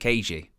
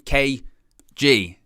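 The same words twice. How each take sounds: First: The stress is on the first syllable. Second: The stress is on the second syllable.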